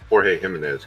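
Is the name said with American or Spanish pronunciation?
Spanish. The name has a Spanish pronunciation.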